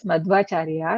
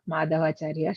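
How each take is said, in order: First: No vowel is heard between dh and v. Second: A short vowel is heard between dh and v. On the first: The speaker calls it right. "We have to say as Madhvacharya" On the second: The speaker calls it wrong. "not Madhavacharya"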